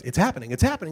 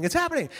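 First: Rising, excited announcer; mock announcer building up. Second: Much higher, thrilled announcer cry; announcer at the peak. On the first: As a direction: let the tension climb. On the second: Retold or imitated. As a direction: it breaks at the top. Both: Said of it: "the announcer goes".

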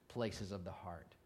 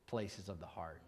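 No difference in how they are said.

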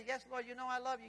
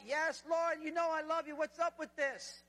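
First: Said in the usual way. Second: Higher, insistent answer with drawn-out protest at the end; worked-up, pleading comeback; exasperated Peter. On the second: Acted. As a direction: protest at being asked yet again. Peter exasperated at being asked again.

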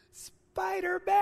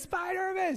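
First: Put-on high, drawn-out little kid's blurt; nervous little boy. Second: Put-on high, eager kid's shout; excited little boy. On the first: Father imitating his nervous son naming the hero, high and slow. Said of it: "all nervous". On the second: Father retelling his son's mistaken cry, high pitched. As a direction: call it out like an excited toddler. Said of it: "he goes".

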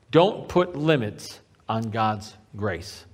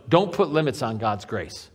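First: "Don't put limits on God's grace" slow and low, word by word; low, weighty "Don't put limits on God's grace", drawn out; slow emphasis. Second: Said in the usual way. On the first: Real, not acted. Preacher repeats the point for emphasis.

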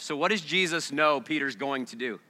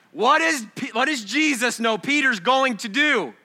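First: Said in the usual way. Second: High, loud and ringing; booming pulpit question; loud preaching. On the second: Real, not acted. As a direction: throw the question out to the room. Question re-asked with force.

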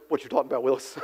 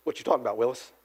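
First: Low, soft mock sitcom catchphrase again quoted deadpan; eighties catchphrase. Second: Low, soft mock sitcom catchphrase; eighties catchphrase. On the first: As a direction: murmur the famous catchphrase low and dry. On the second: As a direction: drop the voice low and quote the catchphrase deadpan. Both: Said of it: "to use another eighties catchphrase".

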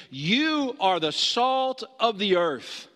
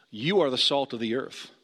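First: Slow, weighty "You are the salt of the earth" with You leaned on; stress on You. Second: Said in the usual way. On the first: Shown as a demonstration. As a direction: say "You" as if the disbelief is in it, slowly. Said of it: "how is he looking at them and saying". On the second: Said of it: "How is he looking at these twelve guys".

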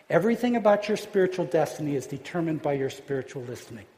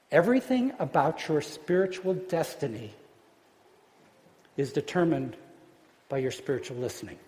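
First: Said in the usual way. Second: Phrase by phrase, long pauses, trailing lower. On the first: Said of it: "repeats the key line straight through". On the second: Shown as a demonstration. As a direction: let each phrase land separately, then fade. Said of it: "preacher states key line, then repeats".

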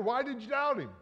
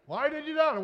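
First: Scolding. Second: Higher, louder "doubt" in a harsher reprimand; rising scold. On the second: Critics scolding Peter, sharper high reproach. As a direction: press the question harder. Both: Retold or imitated. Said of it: "and say".

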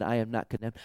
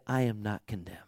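First: Said in the usual way. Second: Hushed, breathy whisper; a soft whisper of "I am not condemned"; whispered verdict. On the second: Acted. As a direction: whisper it like a secret truth. Quoting the judge's verdict.

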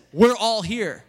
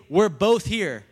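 First: "all" punched out loud; stress on ALL. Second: "both" punched loud as the wrong word; stress on BOTH. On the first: Preacher corrects the misquote for the church, stress on "all". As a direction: hit "all" hard as the key word. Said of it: "He says". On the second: Preacher contrasts the misquote for the church, stress on "both". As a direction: lean hard on "both". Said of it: "He doesn't say". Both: Shown as a demonstration.

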